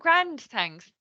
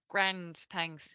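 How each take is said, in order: First: It is said in a bright, upbeat tone. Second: It is said in a flat, hesitant tone. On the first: The person is actually feeling good. "then you know pro- actually they're probably really good" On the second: Things are not going so well for the person. "it might mean that, you know, there's some, you know, things are not so good"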